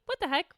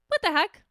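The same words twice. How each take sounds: First: Said in the usual way. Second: "What the heck?" pitched higher and louder, punched on "What". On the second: Retold or imitated. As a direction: bark out "What the heck?" with more force. Inner thought said again, louder.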